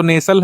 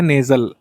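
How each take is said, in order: First: "नेसल" with a hissed s sound; as spelt. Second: "नेजल" with a buzzing z, NAY-zul; z sound. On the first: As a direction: say "नेसल" with s, NAY-sul. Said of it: "लिखते तो नेसल हैं". ("नेसल" में स की ध्वनि) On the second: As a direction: voice the middle of "नेजल" as z. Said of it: "जा का sound यहाँ पर आता है". ("नेजल" में ज़ की ध्वनि) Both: Shown as a demonstration.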